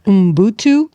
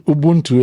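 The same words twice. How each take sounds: First: Ubuntu said as umbutu; mispronounced Ubuntu. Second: Ubuntu said as ubuntu; correct pronunciation. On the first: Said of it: "I'm gonna totally butcher it". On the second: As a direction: Ubuntu as ubuntu, stressed on bun, falling. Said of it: "Um, Ubuntu, yeah?". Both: Shown as a demonstration.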